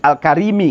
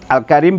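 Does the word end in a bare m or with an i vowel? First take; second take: i vowel; bare m. First: The word ends with an added i vowel. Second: The word ends on a bare m sound. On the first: This is the original full form. "kan asalnya" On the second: It is shortened to fit the meter. "bisukunil min lil wazni"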